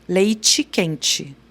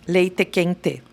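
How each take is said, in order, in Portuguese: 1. O t final soa tipo ch nas duas palavras. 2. O t final soa normal nas duas palavras. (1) "Como é que a gente fala leite quente?" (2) "Como o gaúcho fala ... Esse é o correto"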